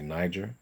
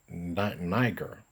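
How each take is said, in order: First: The G is sounded like a J. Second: The G is sounded as a hard G.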